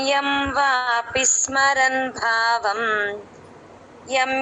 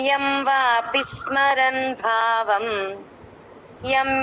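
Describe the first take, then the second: The two takes are said the same way.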